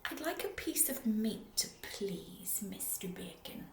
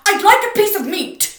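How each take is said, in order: First: Soft whisper; very quietly. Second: Huge boom, far louder and higher. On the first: Mister Noisy politely whispering to the butcher. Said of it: "very quietly, he said". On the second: Mister Noisy booming at the butcher again. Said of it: "he boomed". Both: Acted.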